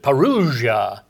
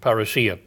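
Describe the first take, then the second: First: The word has an anglicized pronunciation. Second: The word has a Greek-style pronunciation. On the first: "he pronounced it parousia" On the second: "the more of the Greek pronunciation"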